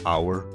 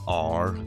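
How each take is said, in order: First: It is said in a standard accent. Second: It is said in a Northern Irish accent.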